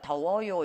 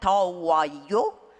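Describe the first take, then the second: First: The final syllable is weak, closer to 여. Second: The final 요 is said fully and forcefully. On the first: This is how Koreans say it. The speaker calls it right. "힘이 하나도 안 들어간 것처럼 하죠" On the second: This is how a learner said it. The speaker calls it wrong. "제 학생이 한 거예요"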